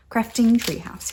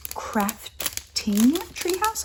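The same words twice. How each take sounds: First: Said in the usual way. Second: Drawn-out high Crafting Treehouse, rising at the end; careful name reading. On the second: Shown as a demonstration. Reading the maker's name aloud, drawn out. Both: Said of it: "I wanna get it right".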